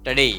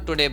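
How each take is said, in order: First: The first vowel is reduced and very short. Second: The first vowel is a full 'oo'. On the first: The speaker calls it right. "But it is ટડે" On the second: The speaker calls it wrong. "It is not ટુડે"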